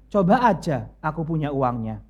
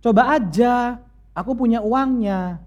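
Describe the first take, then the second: First: "Coba aja, aku punya uangnya" low and falling, as a dry dare; sarcastic reading. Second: "Coba aja, aku punya uangnya" read higher and upbeat, as a yes; cheerful reading. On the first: Husband shows how his message was meant, dryly sarcastic. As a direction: say it as a warning, not a yes. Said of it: "Bukan gitu bacanya". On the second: Wife reads husband's message as a cheerful go-ahead. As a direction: read it as happy permission. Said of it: "Terus Mas tulis di sini". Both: Retold or imitated.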